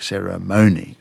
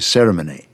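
First: The stress is on the third syllable. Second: The stress is on the first syllable. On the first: This is the American pronunciation. "all of these ones with the stressed second last syllable, like ceremony, right, are American" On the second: This is the Australian pronunciation. "anyone commentating in Australia was going to say ceremony"

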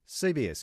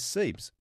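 First: It is spelled out as three separate letters. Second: It is said as a single one-syllable word. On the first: "abbreviated clusters that actually are not pronounceable" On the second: "they are converting those letters into"

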